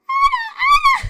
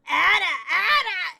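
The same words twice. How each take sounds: First: It is a super high-pitched Dadomi impression. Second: It is said in an impression of Gaku.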